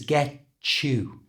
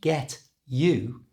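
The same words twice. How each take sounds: First: The t and y blend into ch. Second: The t and y are said separately. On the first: "with a ch sound" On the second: "It wasn't get you"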